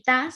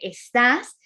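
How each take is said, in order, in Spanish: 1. La primera sílaba se omite, es una forma acortada. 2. La primera sílaba se mantiene, es la forma completa.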